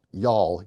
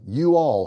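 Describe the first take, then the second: First: Y'ALL run together as one syllable; contracted Y'ALL. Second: YOU ALL as two separate words; uncontracted YOU ALL. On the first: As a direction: say Y'ALL as a single contracted word. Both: Shown as a demonstration. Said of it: "It's a contraction of you all".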